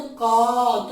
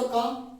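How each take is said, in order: First: का stretched three times as long and louder; का held like a pluta vowel, three beats; extra long vowel. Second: का said with a long aa, as a dirgha vowel; का with a normal long aa. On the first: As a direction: drag का out as if calling someone. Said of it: "और बड़ा अगर कर दें तो का". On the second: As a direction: hold का for two beats. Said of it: "अगर दीर्घ बोले तो का". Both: Shown as a demonstration.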